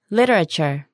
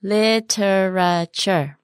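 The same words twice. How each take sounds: First: Said in the usual way. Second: "Literature" in slow separate syllables; slow word model. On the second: Shown as a demonstration. Teacher modelling "Literature" for learners, very slowly. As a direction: draw out every syllable of "Literature".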